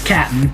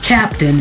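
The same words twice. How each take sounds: First: The word is shortened, dropping the middle sounds. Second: The word is said fully with all syllables. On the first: The speaker calls it right. "it's Captain. ... C A P N" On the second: The speaker calls it wrong. "it's not Captain"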